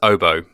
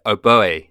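First: It ends in an oh sound, final e silent. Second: The final e is sounded as an extra vowel. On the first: It is named after the musical instrument. "the correct pronunciation is oboe, as in after the musical instrument oboe" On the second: It sounds more eloquent, French style. "my French colleagues in the office call it oboe with an accent on the e"

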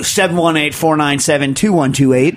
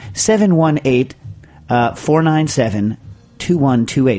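First: The number is said quickly. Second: The number is said at a slower pace.

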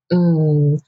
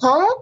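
First: The pitch falls. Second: The pitch rises.

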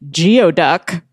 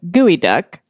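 First: The first part is said like 'gee-oh'. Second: The first part is said like 'gooey'. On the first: The speaker calls it wrong. "I had been pronouncing it geoduck" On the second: The speaker calls it right. "instead of gooey duck"

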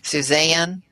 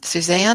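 First: It is said in a drawn-out Southern accent. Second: It is said in a plain, neutral accent.

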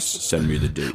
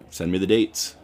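First: It is said in a much lower, deeper voice. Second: It is said in the speaker's normal voice.

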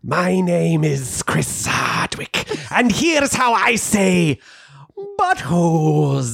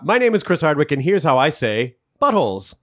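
First: It is said as an evil Death Eater, hissing. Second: It is said in a plain, authoritative voice.

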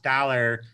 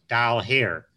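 First: It is said as one ordinary word. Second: It is said as two separate words.

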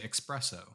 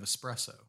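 First: It begins with an 'ex' sound, like expresso. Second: It begins with an 'es' sound, no x. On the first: The speaker calls it wrong. "people say espresso instead of espresso" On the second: The speaker calls it right. "There is no X in espresso"

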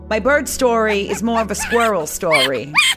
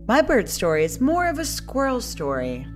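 First: It is said in a New Jersey accent. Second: It is said in her normal accent.

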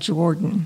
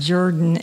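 First: The first syllable sounds like 'jor'. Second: The first syllable sounds like 'jer'. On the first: The speaker calls it wrong. "instead of Jordan" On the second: The speaker calls it right. "It is pronounced Jerdon"

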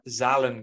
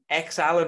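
First: The name begins with a 'z' sound. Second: The name begins with the sound 'eks'. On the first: The speaker calls it right. "It's definitely Zalen" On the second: The speaker calls it wrong. "I don't know if you pronounce it X Allen"

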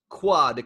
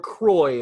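First: The word ends in a 'wah' sound. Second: The word ends in an 'oy' sound. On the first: "Spelled in the French way" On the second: "if you're using a Louisiana pronunciation"

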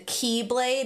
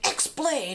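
First: The name begins with the sound 'key'. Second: The name begins with the sound 'ex'. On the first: The speaker calls it right. "the X was pronounced key" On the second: The speaker calls it wrong. "I've been saying it wrong"

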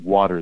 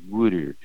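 First: It is said in a general American accent. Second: It is said in a Philadelphia accent. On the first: "instead of saying water" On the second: "they say water"

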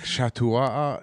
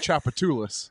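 First: It is said with a French-style pronunciation. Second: It is said with the local American pronunciation. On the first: A French visitor reads it as French. The speaker calls it wrong. "They'd be like Chatois" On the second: Locals say it this way. The speaker calls it right. "No, it's Chapatoulas"

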